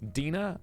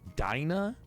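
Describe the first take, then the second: First: The first syllable sounds like "deen", not "dine". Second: The first syllable sounds like "dine" in dinosaur. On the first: The speaker calls it right. "I've met plenty of Dinas" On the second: The speaker calls it wrong. "What, like dinosaur?"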